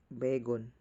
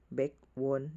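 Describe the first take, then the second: First: No w sound begins the last syllable. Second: A w sound begins the last syllable.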